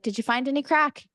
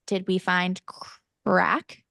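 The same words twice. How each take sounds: First: Casual Irish question, lifted pitch; Irish accent. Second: Halting mock bafflement; puzzled retelling. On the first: Retold or imitated. Mom asking the kids about fun, Irish accent. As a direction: ask it with an Irish lilt. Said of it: "crack in Irish means fun". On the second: Kids' friends looking at mom, puzzled by Irish slang. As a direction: pause before "crack", as if baffled. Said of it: "friends are all looking at me like".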